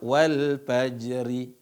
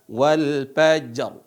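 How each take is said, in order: First: The final r is followed by an i vowel. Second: The final r has no vowel after it. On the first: The speaker calls it wrong. "Bukan dibaca wal fajri" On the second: The speaker calls it right. "Tapi yang dibaca wal fajr"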